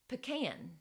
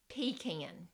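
First: It is said the Southern way. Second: It is said the Northern, Michigan way.

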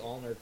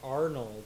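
First: The name is said as 'Allnerd' with an L. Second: The name is said as 'Arnold' with an R. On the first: The speaker calls it wrong. "I combine the two words, so I always say Allnerd" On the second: The speaker calls it right. "Arnold is hard for my mouth to say sometimes"

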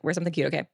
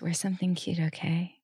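First: It is said in a normal tone. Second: It is said in a flirty way.

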